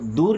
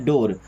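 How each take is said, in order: First: The vowel is a long 'oo' sound. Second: The vowel is an 'o' sound. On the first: The speaker calls it wrong. "दूर नहीं पढ़ते ना" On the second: The speaker calls it right. "क्या पढ़ते, डोर"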